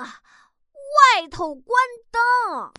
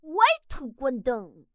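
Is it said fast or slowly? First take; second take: slowly; fast. First: It is said at a slow pace. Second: It is said at a quick pace.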